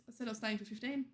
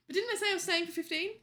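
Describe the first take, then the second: First: Said in the usual way. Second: Quick, higher, louder indignant question; surprised. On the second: Real, not acted. Catching a viewer's wrong time estimate in quick surprise. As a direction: pounce on the mismatch.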